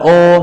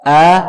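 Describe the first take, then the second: First: The vowel is thick and dark, like o. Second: The vowel is thin and light, like a. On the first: The speaker calls it wrong. "itu sudah tebal" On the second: The speaker calls it right. "jadi tipis saja"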